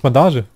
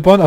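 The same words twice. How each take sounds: First: Bandage with a clear a and a French-style ending; corrected to Bandage. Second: Bondage said with a short o, like the English word; wrong word Bondage. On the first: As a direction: say Bandage like the German word for bandage. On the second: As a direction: read as Bondage, English-style o. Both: Real, not acted. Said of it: "Achso, das ist Bandage".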